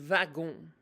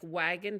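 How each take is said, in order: First: The word begins with a V sound. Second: The word begins with a W sound. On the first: "they pronounce it like uh, with a V" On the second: "like wagon"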